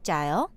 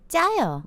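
First: The voice rises at the end. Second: The voice falls at the end.

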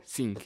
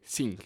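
First: The word begins with an s sound. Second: The same.

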